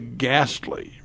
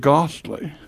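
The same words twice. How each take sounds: First: It is said with an American pronunciation. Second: It is said with a British pronunciation. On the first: "if we say ghastly" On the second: "The British will say ghastly"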